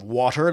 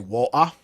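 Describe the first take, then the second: First: The middle T is clearly pronounced. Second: The middle T is dropped, Cockney-style.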